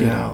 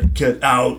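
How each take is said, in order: First: It is said in a stunned monotone. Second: It is said like the Terminator.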